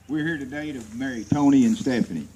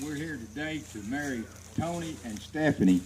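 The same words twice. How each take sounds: First: Louder, for everyone. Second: Said in the usual way. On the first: Real, not acted. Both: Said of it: "Okay, y'all got it now".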